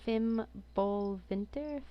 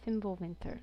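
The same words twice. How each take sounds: First: Fimbulwinter sounded out slowly with a questioning rise; unsure pronunciation. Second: Fimbulwinter said firmly with a falling end; settled pronunciation. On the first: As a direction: try out Fimbulwinter slowly, as if checking it. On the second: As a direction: land on Fimbulwinter with confidence. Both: Shown as a demonstration.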